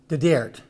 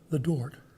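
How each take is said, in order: First: The vowel in DART sounds hard and flat. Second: The vowel in DART sounds soft and rounded. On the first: The speaker comes from a less well-off area. "it becomes the Dert" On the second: The speaker comes from a well-off area. "the vowel sound becomes softer again"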